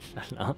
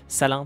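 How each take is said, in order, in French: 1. Le nom commence par un son sh. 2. Le nom commence par un simple son s. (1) "c'est quand même très moche" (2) "plutôt, on prononce pas le H en français"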